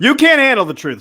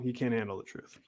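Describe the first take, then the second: First: The line is yelled loudly. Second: The line is said at normal volume. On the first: The speaker calls it right. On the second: The speaker calls it wrong.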